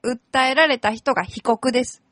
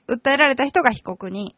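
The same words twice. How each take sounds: First: 被告 said plainly, no added syllable; 被告 ending cleanly on its last sound. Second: 被告人 with the final 人 clearly weighted; stress on 人. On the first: A lawyer on the radio explains civil-case terms, plainly. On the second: The lawyer contrasts 被告人 with 被告 for listeners, stressing 人. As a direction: lean on the 人 in 被告人. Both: Shown as a demonstration. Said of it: "被告と被告人も違うんですね".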